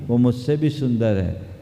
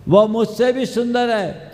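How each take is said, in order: First: Said in the usual way. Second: High, loud retold insistence; emphatic urging. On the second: Girl sends suitor to her sister, emphatic. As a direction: push it forward with a raised voice.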